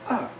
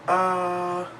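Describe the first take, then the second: First: The pitch drops sharply from high. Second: The pitch stays high and level. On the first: "a falling tone" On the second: "a high-pitched flat tone"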